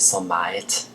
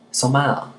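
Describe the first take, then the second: First: The final T sound is clearly pronounced. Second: The final T sound is left off.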